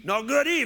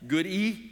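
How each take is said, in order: First: High, loud Cajun correction; Cajun neighbor. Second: Said in the usual way. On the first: Retold or imitated. Neighbor corrects the puzzled pastor, high Cajun insistence. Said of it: "that was my neighbor".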